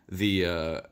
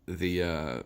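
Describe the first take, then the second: No difference in how they are said.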